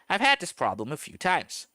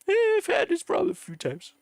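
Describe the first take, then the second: First: It is read in his normal voice. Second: It is read in a put-on character voice.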